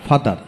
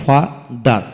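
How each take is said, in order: First: Said in the usual way. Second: father split into two slow beats; syllable by syllable. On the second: Shown as a demonstration. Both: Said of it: "যতটুকু অংশ একসাথে উচ্চারণ করা যায়".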